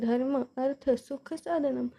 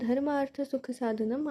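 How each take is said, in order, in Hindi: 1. dharma और artha दो अलग शब्दों की तरह बोले जाते हैं। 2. dharma और artha एक ही शब्द में मिल जाते हैं। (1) "आप ऐसे बोलिए" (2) "संधि के साथ"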